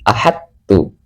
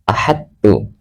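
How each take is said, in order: First: The d merges straight into the t. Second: The same.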